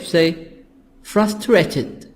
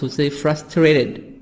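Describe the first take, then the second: First: It has a British accent with a crisp T. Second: It has an American accent with a soft D. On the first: "in British, we say" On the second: "in American, I can make the T soft D here"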